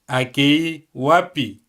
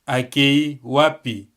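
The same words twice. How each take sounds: No difference in how they are said.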